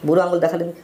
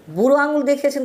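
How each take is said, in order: First: Said in the usual way. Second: আঙুল hit much higher, with mocking indignation; scornful echo, আঙুল lifted high; emphatic repeat. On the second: Real, not acted.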